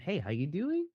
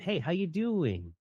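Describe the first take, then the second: First: The pitch rises at the end of the phrase. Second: The pitch falls at the end of the phrase. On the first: The speaker calls it wrong. "as opposed to" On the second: The speaker calls it right. "can you just give me a downward inflection"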